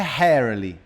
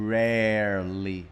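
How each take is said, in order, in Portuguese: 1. O primeiro som é um H aspirado. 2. O primeiro som é o R do inglês. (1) "não é rarely. Não é ré, ré com som de H não" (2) "Com som de R"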